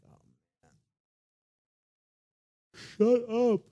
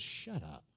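First: High, loud, fed-up "Shut up"; tired, exasperated. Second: Quiet, low, flat "Shut up"; calm command. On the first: Tired Jesus woken from a nap, exasperated outburst. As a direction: sigh "Oh, man", then snap it out. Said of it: "I imagine he's tired". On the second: Jesus telling wind and waves, low and quiet. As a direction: drop it down, matter-of-fact. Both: Retold or imitated.

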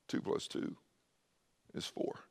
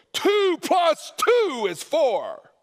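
First: Soft, near-whispered; lowered tone. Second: High, slow, loud shout; yelled. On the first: Preacher showing truth needn't be yelled, soft and quiet. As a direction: say it gently, barely voiced. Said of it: "You can actually lower the tone". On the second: Preacher yelling a simple truth at the congregation, shouting. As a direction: bellow it like an angry preacher. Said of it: "truth doesn't have to be yelled". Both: Shown as a demonstration.

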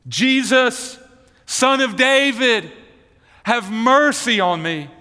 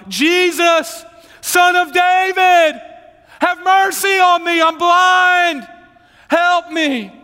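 First: Raised, drawn-out plea for mercy; crying out. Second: Bartimaeus screaming for help at full volume; very high, loud, drawn-out begging cry; desperate shout. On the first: Blind beggar calls to Jesus on the road, crying out. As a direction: call out to Jesus, higher than usual. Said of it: "he began to cry out". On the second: Blind beggar screams to Jesus for help, desperate shouting. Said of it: "it was more like". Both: Acted.

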